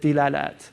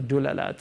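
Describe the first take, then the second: First: The first vowel is an i sound. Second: The first vowel is a u sound. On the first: "Mauritanians use it with Dilalat" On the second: "you can use all three"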